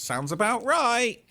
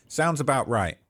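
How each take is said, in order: First: Knowing sarcasm. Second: Said in the usual way. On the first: Real, not acted.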